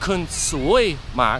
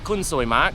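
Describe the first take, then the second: First: The middle word is said as two syllables. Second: The middle word is said as one syllable. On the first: You are very unlucky. "kind of like two syllables like sui instead of soy" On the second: You are very beautiful. "say it essentially with one syllable"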